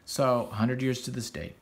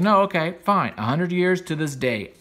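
First: Said in the usual way. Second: Higher, louder half-mocking agreement; tossing off a taunting fine, louder and higher. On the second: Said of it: "He's like".

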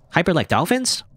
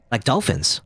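First: High rising disbelief on dolphins; incredulous echo. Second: Said in the usual way. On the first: Acted. Friend echoes May's odd word, baffled. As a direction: repeat it back, baffled.

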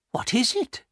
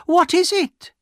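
First: Very high, curious woman's voice; anxious cry. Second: Loud, very high demand to know; insistent cry. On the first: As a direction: ask high, without raising the volume. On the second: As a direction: cry it out at the top of your voice. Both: A narrator's reading.

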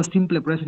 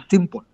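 First: "simple present" with "simple" read as in Spanish, -ple sounded out; quick wrong take of "simple present", Spanish -ple ending; Spanish-style mispronunciation. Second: "simple" said as "sim-pol"; English pronunciation. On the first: Teacher showing what he does not say, Spanish-style pronunciation. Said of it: "yo no digo simple present". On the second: Teacher correcting pronunciation for students, English pronunciation. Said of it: "yo digo simple". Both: Shown as a demonstration.

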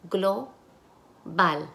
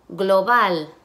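First: Global split as "glo... bal" with a pause; syllable by syllable. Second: Said in the usual way. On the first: Shown as a demonstration. Teacher asks for the syllables, syllable by syllable. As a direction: break Global into two separate syllables. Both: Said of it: "Y ahora las sílabas".

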